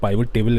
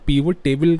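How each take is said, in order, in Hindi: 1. पहला स्वर 'eye' जैसा बोला जाता है। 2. पहला स्वर 'ee' जैसा बोला जाता है। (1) "मेरी ऐसा बोलने की आदत पड़ गई है" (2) "बहुत सारे लोग इसको पीवट टेबल कहते हैं"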